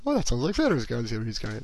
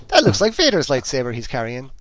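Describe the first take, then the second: First: Self-mocking Irish lilt; mock Irish accent. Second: Strong Irish lilt, louder; Irish accent. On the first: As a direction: send up your own Irish accent. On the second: Real, not acted. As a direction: let a broad Irish accent slip out. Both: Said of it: "That sounded very Irish there".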